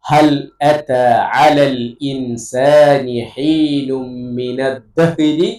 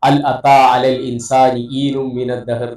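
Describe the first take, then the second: First: It is careful and the h sounds are clear. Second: It is rushed and the h sounds are dropped. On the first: The speaker calls it right. "ഈ ഓരോ അക്ഷരങ്ങളും ശ്രദ്ധയോട് കൂടിയിട്ട് ഉച്ചരിക്കാം" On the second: The speaker calls it wrong. "ഒറ്റടിക്ക് നമ്മൾ അങ്ങനെ ഉച്ചരിച്ചു പോകും"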